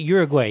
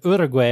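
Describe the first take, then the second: First: The word is said plainly, without a foreign accent. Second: The word is said with a foreign accent. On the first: "he says it Uruguay" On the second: "He doesn't say it with the accent"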